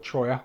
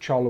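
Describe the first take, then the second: First: The middle consonant is a Y sound. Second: The middle consonant is an L sound. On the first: The speaker calls it right. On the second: The speaker calls it wrong.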